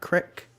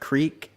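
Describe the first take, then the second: First: The vowel is short, as in 'sick'. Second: The vowel is long, as in 'seek'. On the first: The speaker calls it wrong. "not crick" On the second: The speaker calls it right. "I say creek"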